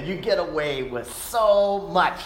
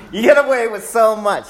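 First: Said in the usual way. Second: Firm repeat. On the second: Retold or imitated. Father quoting himself to son.

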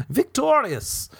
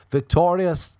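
First: Very high, drawn-out victory cry; mock triumph. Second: Said in the usual way. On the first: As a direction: crow it like a hammed-up champion. Mock triumph walking away.

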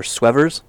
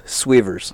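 First: "Swevers" with a short e in the first syllable; alternative pronunciation. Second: "Swavers" with a long ee in the first syllable; alternative pronunciation. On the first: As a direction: say "Swevers" as SWEV-erz. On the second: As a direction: say "Swavers" as SWEE-verz. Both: Shown as a demonstration. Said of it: "Or Swevers".

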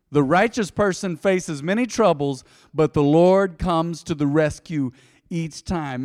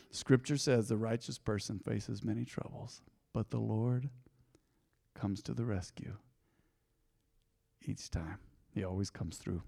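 First: Louder, slow, preaching it out; proclaimed boldly. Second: Much softer, fading to near hush; quietly comforting the weary listener; soft reassurance. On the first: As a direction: declare it like a promise. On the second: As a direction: lay it gently on a hurting heart. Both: Shown as a demonstration. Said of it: "Now let's hesitate there for a moment".

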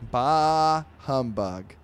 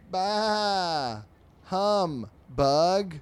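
First: Loud bah humbug. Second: High, loud bleat of bah humbug. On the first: Shown as a demonstration. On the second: Acted. Sheep answering the fly, loud bleating bah humbug.

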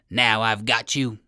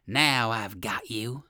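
First: Brisker triumphant owl cry; owl's cry. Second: Owl's cry. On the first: Owl rushes out at the trickster, triumphant cry. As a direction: pounce on it, a touch forceful. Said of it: "he cried". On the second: Owl seizes Uncle Wiggily, slow gloating cry. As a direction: draw it out as the captor owl. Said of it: "cried the owl". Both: A narrator's reading.

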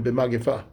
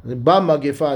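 First: B'magefa said as "be-magefa", short e in the first syllable. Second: B'magefa said as "ba-magefa", open a in the first syllable. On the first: Teacher correcting the reading, saying b'magefa as "be-magefa". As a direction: start b'magefa with a light "be" sound. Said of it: "It should have been b'magefa". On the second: Teacher reading the text, saying B'magefa as "ba-magefa". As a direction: start B'magefa with a clear "ba" sound. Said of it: "as opposed to b'magefa". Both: Shown as a demonstration.

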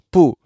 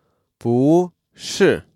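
First: 不是 with 不 falling, then 是 falling; two separate sharp drops on 不 and 是; two falling tones. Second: 不是 slowly, 不 climbing, 是 dropping; rising then falling. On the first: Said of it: "is more logical than". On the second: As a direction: stretch 不 upward, then let 是 fall. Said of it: "go up". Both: Shown as a demonstration.

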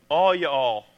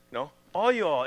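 First: A light Southern "all you all", drawn out; Southern drawl. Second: Said in the usual way. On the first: Retold or imitated. Pastor imitating Southern folk, light Southern accent. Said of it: "Southern people who use the phrase". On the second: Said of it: "plain after the country imitation".

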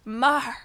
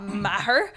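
First: "Mar" as one long open syllable, no h; Irish pronunciation. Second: "Maher" in two syllables with a sounded h; wrong pronunciation. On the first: Retelling dad correcting the surname, Irish pronunciation. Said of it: "he said it with his Irish accent". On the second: Retelling dad correcting the surname, wrong pronunciation. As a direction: say "Maher" as MA-her, the mistaken way. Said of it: "And then he said it right". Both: Retold or imitated.

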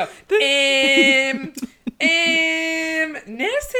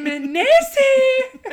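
First: High, held-out Scottish caricature; mock Scottish accent. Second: High, loud, drawn-out mock Scottish; Scottish accent. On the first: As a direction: imitate Scots with long, high drawn-out sounds. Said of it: "They all just go". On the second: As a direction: stretch it out in a hammed-up Scottish accent. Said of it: "That's my Scottish accent".

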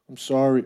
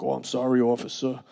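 First: Said in the usual way. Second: Put-on softer apology in a Long Island accent; imitating own old Long Island accent; heavy Long Island accent. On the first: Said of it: "Oh, I had a, like, a real heavy Long Island accent too". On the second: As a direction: lay on the Long Island vowels. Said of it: "a real heavy Long Island accent too".

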